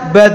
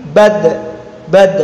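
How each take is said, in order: First: "bad" with the d let go into a drawn vowel; released sound. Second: "bad" with the final d stopped short; held sound. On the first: Teacher showing how it is tidak dibaca, released sound. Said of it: "Tidak dibaca". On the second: Teacher giving the correct reading, held sound. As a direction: hold back the d of "bad", no trailing vowel. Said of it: "Jadi suaranya terta". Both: Shown as a demonstration.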